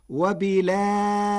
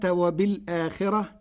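First: "وبالآخرة" as wa-bilaakhirati, no hamza, long aa, light r; hamza transfer. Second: Said in the usual way. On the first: Shown as a demonstration. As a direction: glide from the lam of "وبالآخرة" into a lengthened aa. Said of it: "بنقل حركة الهمزة إلى الساكن قبلها". ("وبالآخرة" بنقل حركة الهمزة وتوسط البدل وترقيق الراء) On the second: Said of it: "بنقل حركة الهمزة".

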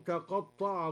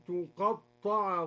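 First: Said in the usual way. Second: تقطع read slowly with a damma on the ta, tuqatta'a. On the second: Shown as a demonstration. Teacher shows the passive reading, slowly. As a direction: open تقطع with a clear u. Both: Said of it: "بضم التاء هكذا".

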